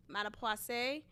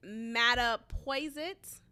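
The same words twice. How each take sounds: First: Mattapoisett said French-style as "matta-pwah-SAY"; softer second try at Mattapoisett, silent t, ending "pwah-say"; alternative pronunciation attempt. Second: Mattapoisett said as "matta-POY-zit", ending in a hard t; first pronunciation attempt. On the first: Unsure of a Massachusetts town name, Mattapoisett tried as "matta-pwah-say". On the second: Unsure of a Massachusetts town name, Mattapoisett tried as "matta-poy-zit". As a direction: sound out Mattapoisett slowly, "poy-zit" at the end. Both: Shown as a demonstration. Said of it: "however you say it".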